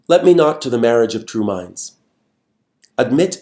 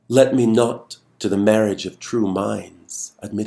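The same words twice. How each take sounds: First: There is a full stop and pause after 'minds'. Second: The phrase runs on from 'minds' without stopping. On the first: Each line is treated as a complete thought. The speaker calls it wrong. "reading it in an end-stopped way" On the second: The sentence carries across the line break. The speaker calls it right. "read this poem in an enjambed way"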